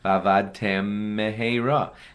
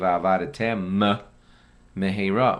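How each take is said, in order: First: The two m sounds merge into one. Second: An extra vowel is inserted before the first m. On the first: "That's one mem" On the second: "try overdo it"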